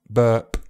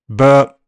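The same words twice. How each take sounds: First: The final p pops out with a sharp ejective burst. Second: The final p has no audible release of air. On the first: "an ejective P could occur where the sound is released by pushing air out" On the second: "Unreleased p is when you can't really hear any release of air"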